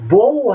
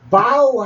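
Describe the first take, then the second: First: The vowel sounds like 'oh' in 'go'. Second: The vowel sounds like 'ow' in 'cow'. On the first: It means a weapon for shooting arrows. "보우 할 때는 활 쓰는 거 있죠" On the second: It means to bend forward at the waist. "바우 했을 때는 절하다 하는 말인데"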